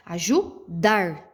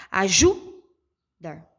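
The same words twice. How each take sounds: First: Slow "Ajudar" with a strong, separate DAR; stress on DAR. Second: Slow "ajudar", JU long and loud, DAR dropping away; stress on JU. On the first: Teacher confirming for pupils, DAR of "Ajudar" stressed. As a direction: say aju, then land hard on DAR. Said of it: "sílaba mais forte que eu pronuncio é o dar". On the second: Teacher testing a pupil's guess, JU of "ajudar" stressed. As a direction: wrongly punch a-JU, then a faint dar. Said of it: "eu acho que é o ju". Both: Shown as a demonstration.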